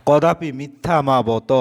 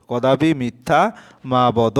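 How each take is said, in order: First: Said in the usual way. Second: Slow, deliberate কদাপি মিথ্যা মা বদ, each word set apart; slow dictation. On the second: Shown as a demonstration. Teacher dictates the corrected answer to students, slow and deliberate. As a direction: spell out কদাপি মিথ্যা মা বদ slowly for the class. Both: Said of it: "অর্থাৎ এখানে মা হবে".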